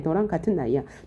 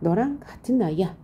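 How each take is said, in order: First: It is spoken in a sultry, mature manner. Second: It is spoken in a cute, childlike manner.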